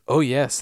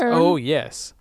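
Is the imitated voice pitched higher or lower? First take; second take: lower; higher. First: The voice is pitched lower. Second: The voice is pitched quite high.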